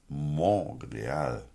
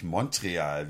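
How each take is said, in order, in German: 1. Der Name bekommt eine andere, weniger übliche Aussprache. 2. Der Name bekommt seine übliche, alltägliche Aussprache. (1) "Es ist Montreal" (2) "Nicht Montreal, wie alle sagen"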